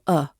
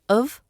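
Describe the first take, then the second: First: The word is only a weak vowel. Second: The word is a weak vowel plus light v. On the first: "This becomes either of or a" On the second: "This becomes either of or a"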